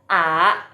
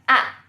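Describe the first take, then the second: First: The pitch rises from middle to high. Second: The pitch drops sharply from high to low. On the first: "yang kedua bacanya a a" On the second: "yang keempat bacanya a, a. Karena disentak begini"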